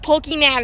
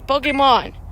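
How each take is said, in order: First: The last syllable sounds like 'man'. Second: The last syllable sounds like 'mon'. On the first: The speaker calls it wrong. "It's not Pokemon, where's the man in the name?" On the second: The speaker calls it right. "it's Pokemon"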